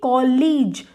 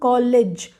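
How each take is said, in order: First: The second vowel is said long. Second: The second vowel is said short. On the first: The speaker calls it wrong. "we should read the long sound. So this should be college" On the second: The speaker calls it right. "This vowel is giving the short sound college"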